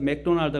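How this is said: The name is said in a Korean way. "우리나라는 그냥 그대로 영어를 따라서 맥도날드 그러잖아요"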